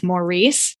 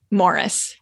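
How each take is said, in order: First: "Maurice" said as more-EECE; mistaken French-style pronunciation. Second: "Morris" said as MORR-iss; English pronunciation. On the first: Host confessing how she misread the title, "Maurice" as more-EECE. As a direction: say "Maurice" with a long ee ending. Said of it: "thought it was pronounced". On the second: Host explaining the English name, "Morris" as MORR-iss. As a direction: stress the first syllable of "Morris", short second one. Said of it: "in England, they pronounce". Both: Shown as a demonstration.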